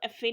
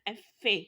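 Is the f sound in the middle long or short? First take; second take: short; long. First: The f sound is short and unstressed. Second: The f sound is long and stressed. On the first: The speaker calls it wrong. "आपने इसको एफ ए नहीं बोलना" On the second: The speaker calls it right. "जो फे है उस पर आपने थोड़ा जोर देना है"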